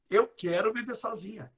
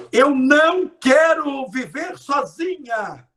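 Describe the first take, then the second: First: Eu quero viver sozinha said softer; quietly, as the brain hears it; softer, no não. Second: Louder and higher, slow, stress on não; loud slow plea. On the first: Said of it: "Você corta o não". (mais baixo, sem o não) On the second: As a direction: declare it loud and drawn out. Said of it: "Minha filha, você tá falando de solidão". (alto, lento, ênfase no não) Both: Shown as a demonstration.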